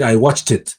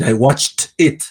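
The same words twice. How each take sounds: First: The words run together into one new sound. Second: Each word is pronounced separately and clearly. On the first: The speaker calls it right. "Te va a decir I watched it. O sea, la T pasa" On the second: The speaker calls it wrong. "Ningún gringo te va a decir I watched it"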